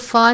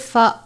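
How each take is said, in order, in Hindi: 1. f के बाद का स्वर छोटा है। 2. f के बाद का स्वर लंबा है। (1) "इसको फ़ा नहीं पढ़ना" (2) "बल्कि फ़ा पढ़ना है क्योंकि हमज़ा के साथ खड़ी ज़बर है"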